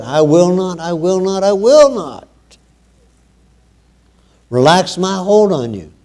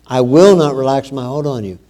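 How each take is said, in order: First: "I will not" repeated, climbing higher each time, then "relax my hold on you" landing firm; building emphasis. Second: Said in the usual way. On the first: Retold or imitated. Preacher showing how God insists to his people, rising emphasis. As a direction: stress "will" harder with every repeat, rising in pitch. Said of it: "he emphasized that when he said". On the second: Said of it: "he emphasized that".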